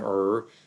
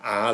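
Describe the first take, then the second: First: The ending is said with a strong r sound. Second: The ending is an open ah vowel with no r. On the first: "North American er" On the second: "in Australian, it would be more of an ah"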